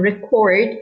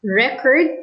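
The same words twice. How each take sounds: First: ReCORD, the verb form; stress on second syllable. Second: RECord, the noun form; stress on first syllable. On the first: Teacher explaining the verb, record stressed on second syllable. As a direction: put the weight on the end of record. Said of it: "the stress is on the second syllable". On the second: Teacher explaining the noun, record stressed on first syllable. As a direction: put the weight on the start of record. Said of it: "the stress is on the first syllable". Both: Shown as a demonstration.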